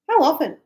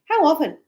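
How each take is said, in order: First: The words are run together very fast. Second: The same.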